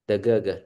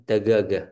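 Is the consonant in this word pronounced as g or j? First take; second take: g; g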